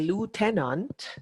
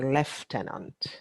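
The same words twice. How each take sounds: First: The word is pronounced the American way. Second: The word is pronounced the British way. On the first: "with an American audience, you will say lieutenant" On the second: "with a British, Jamaican audience, you will say lieutenant"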